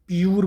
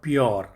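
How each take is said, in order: First: The vowel after p sounds like 'yoo'. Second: The vowel after p sounds like 'yo'. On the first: The speaker calls it wrong. "आप इसको प्यूर बोलेंगे तो गलत है" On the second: The speaker calls it right. "तो इसका sound क्या है? यो।"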